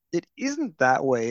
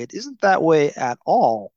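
First: Said in the usual way. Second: "that" stressed, louder, falling; emphatic correction. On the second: Shown as a demonstration. Host insisting the usual story is wrong, with louder emphasis. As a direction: lean hard on "that" and "at all".

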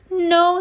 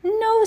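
First: High, loud denial; dramatic no. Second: Very high, snappy denial; dramatic no. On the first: Villain rejecting the second guess, high and loud. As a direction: toss it off again. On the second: Villain rejecting the kid's guess, very high. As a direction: shoot the guess down. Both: Acted. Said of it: "said Captain Plaque".

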